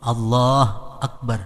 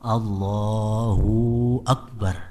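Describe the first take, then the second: First: The 'hu' syllable is dropped entirely. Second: The 'hu' syllable is stretched into a long 'u'. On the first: "Jangan dimatiin hu-nya itu Bang" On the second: "ruhunya kepanjangan"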